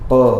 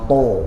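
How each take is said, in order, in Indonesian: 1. Vokalnya 'a' terbuka. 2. Vokalnya bulat seperti 'o'. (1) "ta fathah bunyinya ta" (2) "bukannya to"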